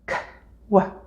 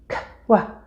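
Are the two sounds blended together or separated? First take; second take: separated; separated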